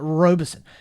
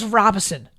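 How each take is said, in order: First: The name is said as Robe-son, two syllables. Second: The name is said as Rob-in-son, three syllables. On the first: The speaker calls it wrong. "He kept calling it Robeson" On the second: The speaker calls it right. "No, it's Robinson"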